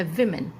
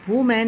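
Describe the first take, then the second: First: विमेन as "VIM-en"; short i first in विमेन; "vi" sound in women. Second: वुमेन as "VOO-men"; wrong oo vowel. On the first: Teacher giving the correct form, "VIM-en". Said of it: "इसका सही pronunciation है". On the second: Teacher showing the incorrect form, "VOO-men". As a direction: round the first vowel of वुमेन to oo. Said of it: "इसका सही pronunciation नहीं है". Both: Shown as a demonstration.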